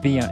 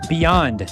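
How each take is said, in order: First: The final D sound is dropped. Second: The final D sound is clearly pronounced. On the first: The speaker calls it wrong. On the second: The speaker calls it right.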